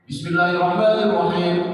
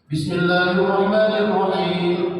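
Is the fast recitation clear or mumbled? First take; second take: mumbled; clear. First: It is fast, with sounds slurred and swallowed. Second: It is fast, with every sound clearly pronounced. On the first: The speaker calls it wrong. "cepat tapi tidak menentu. Jadi bacaan itu tidak jelas, dikerumuk-kerumuk" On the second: The speaker calls it right. "Cepat tapi panjang pendeknya jelas"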